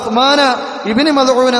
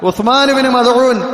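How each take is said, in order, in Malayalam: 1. പേര് അവസാനിക്കുന്നത് ചേർത്ത 'a' സ്വരാക്ഷരത്തോടെയാണ്. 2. പേര് 'Uthman' എന്നതിൽ അവസാനിക്കുന്നു, സ്വരാക്ഷരമില്ല. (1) "ഖബറ ഉസ്മാന ഇബ്നു മദ്ഊൻ എന്ന് വായിക്കേണ്ട സ്ഥലത്ത്" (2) "ഉസ്മാൻ ഇബ്നു മദ്ഊൻ എന്ന ഇയാൾ വായിക്കുന്നത്"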